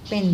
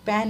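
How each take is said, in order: First: Said in the usual way. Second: पेन said as "pan"; wrong open vowel. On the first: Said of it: "पेन बोला जाता है". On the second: Shown as a demonstration. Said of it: "पेन नहीं बोला जाता".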